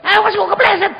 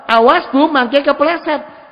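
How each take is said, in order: First: Very high, very loud scolding yell; angry shout. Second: Raised, high warning with a drawn-out end; loud but not angry. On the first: Child snapping at an old mother about slipping, angry shout. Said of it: "Itu parah kalau saya". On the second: Child warning a hard-of-hearing mother about slipping, loud but not angry. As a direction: call it out loudly without anger. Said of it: "Banter ndak apa-apa". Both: Shown as a demonstration.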